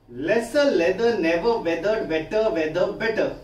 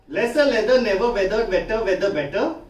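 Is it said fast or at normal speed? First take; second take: normal speed; fast. First: It is said at a normal speed. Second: It is said as fast as possible.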